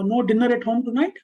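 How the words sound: It is said as a question, pitch changing on tonight.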